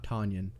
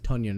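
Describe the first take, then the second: First: The name does not rhyme with Funyun. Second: The name rhymes with Funyun. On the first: The speaker calls it wrong. "not Tanyan" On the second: The speaker calls it right. "his name is Tunyon"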